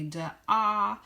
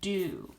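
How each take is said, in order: First: The vowel sounds like 'ah'. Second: The vowel sounds like 'oo'. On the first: The speaker calls it wrong. "Some might say D-ah" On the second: The speaker calls it right. "it makes the oo sound for do"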